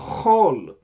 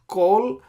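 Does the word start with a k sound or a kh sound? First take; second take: kh; k. First: The word starts with a raspy kh sound. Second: The word starts with a hard k sound. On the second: "Sometimes it comes with a dot. When say pronounce kol"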